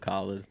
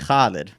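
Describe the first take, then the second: First: The name starts with a plain K sound. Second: The name starts with a rough throaty sound. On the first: This is the easier version given to other people. "I just tell people" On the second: This is how the family says the name. "they say Khalid"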